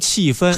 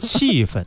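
First: The second syllable has a full tone. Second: The second syllable has a light neutral tone. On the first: The speaker calls it wrong. "你不能读气氛" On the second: The speaker calls it right. "你得读气氛"

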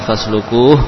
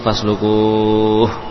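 First: The long vowel is held for two counts. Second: The long vowel is held for six counts.

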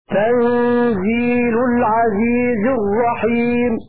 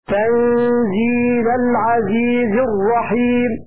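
First: Tanzil ends with the vowel u. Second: Tanzil ends with the vowel a. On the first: It states that this is a revelation. "رفعا على الخبر" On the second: It means it was sent down as a revelation. "بالفتح نصبا"

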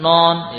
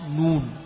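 First: The vowel sounds like an open o. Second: The vowel is a full rounded u. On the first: The speaker calls it wrong. "bukan non ya" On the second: The speaker calls it right. "Ayo sempurnakan tomahnya"

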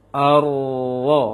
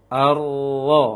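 The two takes are said the same way.

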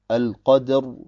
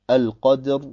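No difference in how they are said.

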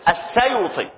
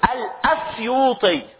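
First: No glottal stop; the vowel moves onto the s. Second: A glottal stop and vowel come before the s. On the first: This is the shortened form used today. "وحذفت الهمزة ونقلت حركتها الى ساكن بعدها" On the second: This is the original form of the name. "هي كان اصلها ايه؟"

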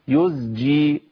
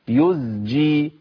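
First: The second consonant is a voiced z sound. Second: The second consonant is a voiced z sound.

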